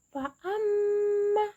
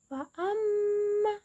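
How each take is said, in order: The two takes are said the same way.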